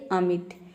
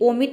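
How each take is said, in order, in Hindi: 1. पहला स्वर छोटी 'uh' जैसी ध्वनि है। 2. पहला स्वर गोल 'o' जैसी ध्वनि है। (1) "ये होता है अमिट" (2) "यहाँ पे ओमिट नहीं होता है"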